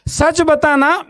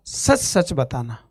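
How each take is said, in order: First: Much higher pleading ask; pressing question. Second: Lower, softer and slow, cooled down; calm doctor. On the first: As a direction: urge him to tell the truth. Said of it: "उसका गुस्सा खत्म". (ऊँची आवाज़ में ज़ोर देकर पूछना) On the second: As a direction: ask gently like a calmed doctor. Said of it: "एकदम ठंडा". (शांत, धीमी आवाज़ में पूछता doctor) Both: Retold or imitated.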